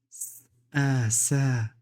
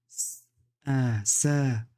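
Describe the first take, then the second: The two takes are said the same way.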